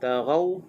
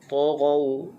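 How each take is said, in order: First: The first t sound is light and thin. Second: The first t sound is heavy and thick. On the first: The speaker calls it wrong. "jangan jadi ta. Taghaw tak kena" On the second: The speaker calls it right. "Ta dibaca dengan tebal"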